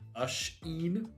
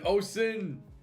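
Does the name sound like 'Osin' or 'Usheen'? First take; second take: Usheen; Osin. First: The name is said like 'Usheen'. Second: The name is said like 'Osin'. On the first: The speaker calls it right. "more pronounced Usheen. Kind of like that" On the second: The speaker calls it wrong. "I got it, like, entirely wrong"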